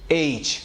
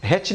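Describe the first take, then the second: First: "ایچ" as aitch, vowel slightly stretched, no h; drawn-out pronunciation. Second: "ہیچ" as hech, with h in front; wrong pronunciation. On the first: Teacher telling learners to stretch it, drawn-out pronunciation. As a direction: draw out the start of "ایچ" a little. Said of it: "تھوڑا سا کھینچ کر نکلے گا". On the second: Teacher warning learners off the mistaken H, wrong pronunciation. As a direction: say "ہیچ" short, starting on h. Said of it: "ہیچ نہیں بولیں گے". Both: Shown as a demonstration.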